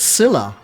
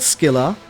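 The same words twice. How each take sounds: First: The word begins with an S sound. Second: The word begins with a K sound. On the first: The speaker calls it right. "It's Scylla. In English, at least" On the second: The speaker calls it wrong. "it's not Scylla"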